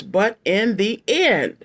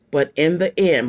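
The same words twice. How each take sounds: First: "but in the end" drawn out slowly with a falling end; slow, weighty phrase. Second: Said in the usual way. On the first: Shown as a demonstration. Reader drives the phrase home for viewers, slow and weighty. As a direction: lean on "end" and take it slow. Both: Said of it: "remember those four words".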